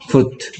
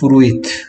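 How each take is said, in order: First: No extra vowel is sounded after 'fru'. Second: An extra 'i' vowel is sounded after 'fru'. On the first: This is how the word is actually spoken. "소리 낼 때는" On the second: This is how the word is spelled. "쓸 때는"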